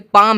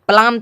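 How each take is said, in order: First: The L sound is silent. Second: The L sound is pronounced. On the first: The speaker calls it right. "उस एल का कोई भी उच्चारण नहीं हुआ" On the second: The speaker calls it wrong. "पलाम थोड़ी ना है"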